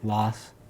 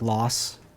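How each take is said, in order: Both takes have the same delivery.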